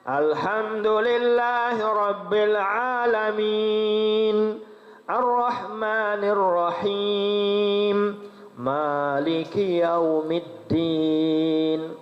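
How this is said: There is a pause after each verse. "Lamun tartil lo harus teman telah bilang ayat"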